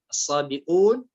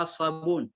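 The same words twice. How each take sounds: First: الصابئون with a clear glottal stop; hamza sounded in الصابئون. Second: الصابون without a glottal stop; hamza dropped in الصابون. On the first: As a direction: articulate the hamza before the long u in الصابئون. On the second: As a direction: glide straight into the long u, no hamza in الصابون. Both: Shown as a demonstration. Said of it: "بدون همزة".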